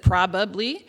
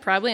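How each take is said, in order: First: The word is said the standard way. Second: The word is said the local Texas way. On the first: The speaker calls it right. "instead of probably" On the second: The speaker calls it wrong. "probably instead of"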